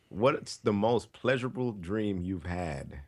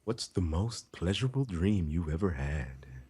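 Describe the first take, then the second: First: It is read in a plain, normal voice. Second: It is said in a put-on sultry voice.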